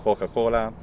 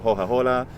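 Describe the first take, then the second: First: The c is a raspy sound at the back of the mouth. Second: The c is a light h from the throat. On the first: "velar fricative" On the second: "just a glottal uh, fricative"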